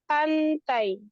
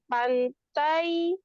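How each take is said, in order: First: The final 'ai' is light and quick. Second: The final 'ai' is heavy and drawn out. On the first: The speaker calls it right. "tapi pantai. Jadi mudah i-nya" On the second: The speaker calls it wrong. "Bukan pantai"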